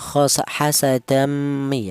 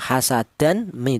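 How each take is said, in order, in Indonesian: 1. Bunyi n menyatu ke bunyi m setelahnya. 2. Bunyi n dibaca jelas sebelum m. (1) "langsung menyatu ke huruf mim" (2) "dibaca jelas atau dibaca idhar"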